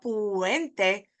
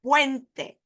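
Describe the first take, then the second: First: Puente stretched as "poo-EN-te"; wrong split vowels. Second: Puente as "PWEN-te", higher pitch; correct diphthong. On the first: Teacher showing what it's not, split vowels. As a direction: say puente in three syllables. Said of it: "not puente". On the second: Teacher correcting the wrong puente, joined diphthong. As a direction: join u and e in puente. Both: Shown as a demonstration.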